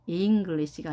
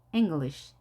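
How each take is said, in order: First: "English" with a clear long i, ing-geu-lish; wrong vowel. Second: "English" starting eng, first vowel short and light; just touch the first vowel of "English"; barely-there vowel. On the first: Teacher shows the wrong reading of "English". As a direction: stress a full "ee" in "English". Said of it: "English가 아니라 English". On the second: Teacher shows the correct light vowel in "English". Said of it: "하는 듯 마는 듯". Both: Shown as a demonstration.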